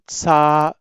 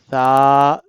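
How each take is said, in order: First: The first consonant has a hissing whistle sound. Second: The first consonant is soft, without whistle. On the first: The speaker calls it wrong. "Some people pronounce it sa ... No" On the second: The speaker calls it right. "Without whistle sound, we have to read it like tha"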